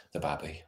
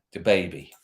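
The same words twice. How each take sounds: First: "babby" said with a short a, soft and low; dialect babby. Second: Said in the usual way. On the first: Shown as a demonstration. Streamer jokes about the youngest cat, quiet "babby".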